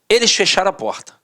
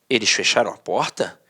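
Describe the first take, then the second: First: It is read in a firm, flat way. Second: It is read as a question.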